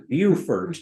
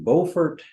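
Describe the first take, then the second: First: The name is said the local way. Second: The name is said in a non-local way. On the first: The speaker calls it right. "The way the locals pronounce it is" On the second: The speaker calls it wrong. "I'm mispronouncing that"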